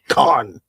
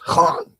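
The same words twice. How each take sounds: First: It starts with a plain k sound. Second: It starts with a rough sound deep in the throat.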